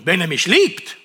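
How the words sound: It is read with strong, marked emphasis.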